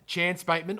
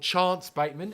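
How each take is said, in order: First: The name is said in a plain, everyday accent. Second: The name is said in an Adelaide-style accent.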